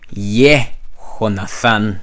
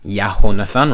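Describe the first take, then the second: First: The first syllable is said as 'yeh'. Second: The first syllable is said as 'yah'. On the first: This is how most people pronounce it. "How it most people pronounce this will be" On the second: This is the speaker's own community's pronunciation. "That's how we pronounce it"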